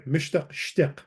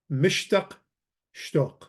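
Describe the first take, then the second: First: Shtiq with a short i vowel; corrected pronunciation. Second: Shtoq with an o vowel; mistaken pronunciation. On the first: Teacher corrects own Syriac reading, short i in "shtiq". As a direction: say "shtiq" with i in place of o. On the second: Teacher misreads Syriac to class, mistaken o in "shtoq". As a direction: say "shtoq" with a rounded o, not an i. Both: Shown as a demonstration. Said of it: "Sorry, mishtaq shtiq".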